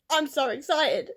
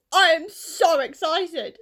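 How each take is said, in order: First: Said in the usual way. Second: I am so excited said slowly and a bit louder, each word stressed; slow, emphatic excitement. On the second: Real, not acted. Vlogger to viewers, stressing how excited she is. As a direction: press down on every word of I am so excited.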